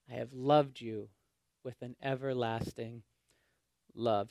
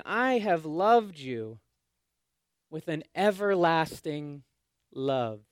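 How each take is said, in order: First: Softer, tender, fading to almost nothing; soft tender declaration. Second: Slow, tender, each word weighed; slow tender declaration. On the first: Pastor quoting God to the refusing exiles, hushed. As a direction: let it sink to a hush. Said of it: "God says". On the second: Pastor quoting God to the exiles, slow and tender. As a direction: say it slowly like a promise. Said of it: "He's saying". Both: Acted.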